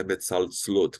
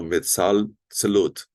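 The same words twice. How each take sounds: First: Metzaltzlot with TZ running straight into L; silent second sheva. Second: Metzaltzlot slowly, with a short E between TZ and LOT; audible second sheva. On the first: Teacher showing the error, metzaltzlot with no vowel before LOT. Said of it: "Não é metzaltzlot". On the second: Teacher explaining two shevas, slow metzaltzlot with audible E. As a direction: sound a small E before LOT in metzaltzlot. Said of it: "e o segundo audível". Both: Shown as a demonstration.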